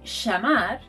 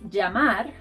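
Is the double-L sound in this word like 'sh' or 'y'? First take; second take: sh; y. First: The double-L is said like a sh sound. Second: The double-L is said like a y sound. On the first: "in Argentina and Uruguay, this sound is pronounced sh" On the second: "think of putting an I in front of the word"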